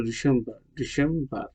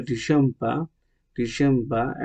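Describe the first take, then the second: First: "ডিসেম্বর" with a sounded final R; American R at the end of "ডিসেম্বর"; American pronunciation. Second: "ডিসেম্বর" with the final R dropped; British R-less ending on "ডিসেম্বর"; British pronunciation. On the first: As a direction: say "ডিসেম্বর" the American way, ending in -bar. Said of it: "American বলে". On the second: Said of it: "ব্রিটিশরা বলে". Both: Shown as a demonstration.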